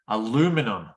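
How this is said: It is said with an American pronunciation. "in American English"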